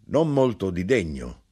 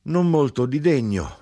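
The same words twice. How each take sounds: First: Lightly voiced grinder. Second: Much higher and louder, mocking; grinder calling. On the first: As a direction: close to the reader's voice, a touch raised. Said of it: "l'arrotino rispose". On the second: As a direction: lift it into a scornful cry.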